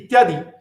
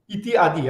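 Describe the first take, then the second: First: The two words are fused into one word. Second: The two words are said separately. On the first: "I'm just saying ityadi" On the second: "I'm not saying iti adi"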